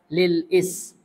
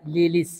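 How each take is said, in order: First: A glottal catch separates lil from is. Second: Lil runs straight into is without a catch. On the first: The hamza is a hamzat al-qat', which is pronounced. "Kalau ada hamzatul qat'iynya, ya kan, itu dibaca lil is" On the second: The hamza is only a hamzat al-wasl, which drops out. "kalau tidak ada hamzah qat'iynya, dia hanyalah hamzatul wasal ya, maka dibaca lilis"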